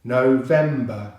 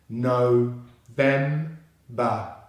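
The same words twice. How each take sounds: First: "November" joined up, leaning on VEM; slow "November" with the weight on VEM; stress on second syllable. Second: "no, them, ba" in three detached pieces, no-vem-ba; syllable by syllable. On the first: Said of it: "the stress is on the second syllable". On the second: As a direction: break November into "no, vem, ba". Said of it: "So together we have". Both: Shown as a demonstration.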